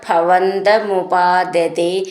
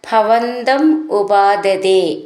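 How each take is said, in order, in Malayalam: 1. രണ്ട് വാക്കുകളും ചേർത്ത് ഒന്നായി പറയുന്നു. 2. രണ്ട് വാക്കുകളും വെവ്വേറെ പറയുന്നു.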